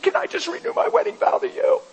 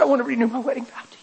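First: Much higher, rising tearful proposal; tearful question. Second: Rushed, much faster repeat of the vow. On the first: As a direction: ask it through tears. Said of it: "she's bawling and I'm bawling". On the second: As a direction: blurt it out quickly again. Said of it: "And she said, "Huh?". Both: Retold or imitated.

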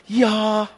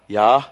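First: High, loud cheering "Ja"; excited crowd cheer. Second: Said in the usual way. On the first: Retold or imitated. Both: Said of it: "how do you say "yeah" in German".

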